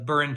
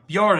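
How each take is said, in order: First: It is said as two syllables, 'Bur-in'. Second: It is said as one syllable with a 'y' glide. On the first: "it's B U R I N" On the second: "It was like a J"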